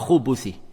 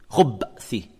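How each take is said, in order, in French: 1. Une voyelle u brève sépare b et th. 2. Aucune voyelle n'est entendue entre b et th. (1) "et non pas" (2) "en mettant un soukoun sur le bas"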